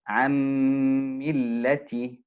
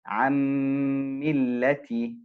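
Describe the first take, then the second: No difference in how they are said.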